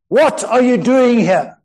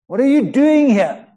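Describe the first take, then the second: First: The question is asked in an angry tone. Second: The question is asked in an accusing tone.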